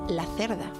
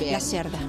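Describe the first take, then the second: First: The surname is said with a Spanish pronunciation. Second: The surname is said with a Portuguese pronunciation. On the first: It sounds like the Spanish word for a female pig. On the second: It is a common surname that does not sound bad.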